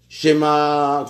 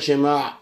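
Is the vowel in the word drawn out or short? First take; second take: drawn out; short. First: The vowel is stretched out long. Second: The vowel is kept short. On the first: The speaker calls it wrong. "les gens rallongent les syllabes" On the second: The speaker calls it right. "Il faut dire « Shema » et pas rallonger"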